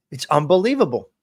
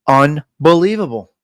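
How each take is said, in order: First: Said in the usual way. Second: "Unbelievable" broken after a loud "Un"; "Unbelievable" in two deliberate, weighty pieces; emphatic split word. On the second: Real, not acted. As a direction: punch the UN of "Unbelievable", pause, then finish.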